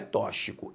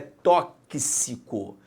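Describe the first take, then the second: First: The x is not pronounced as 'ks'. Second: The x is pronounced as 'ks'. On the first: The speaker calls it wrong. "não é tóxico" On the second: The speaker calls it right. "é tóxico. Se é tóxico, a letra X aqui forma o conjunto K S"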